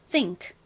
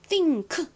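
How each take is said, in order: First: The final k is said very weakly. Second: The final k is as strong as the rest. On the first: The speaker calls it right. "끝의 소리는 좀 약하게 발음이 나요" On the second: The speaker calls it wrong. "이렇게 일 대 일 똑같은 비율로 발음하지 않고요"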